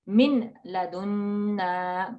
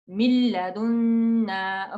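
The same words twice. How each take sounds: First: The n sound is pronounced clearly. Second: The n sound merges into the l. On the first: The speaker calls it wrong. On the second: The speaker calls it right. "it blends completely ... No N sound there"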